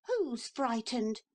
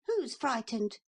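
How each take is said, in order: First: Put-on high, drawn-out boyish retort; boy's slow defiant repeat. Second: High, quick little boy pretending not to care; boy's defiant voice. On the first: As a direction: repeat it stubbornly. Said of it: "said Neville again". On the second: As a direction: act brave as a small boy. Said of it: "so he just said". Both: A narrator's reading.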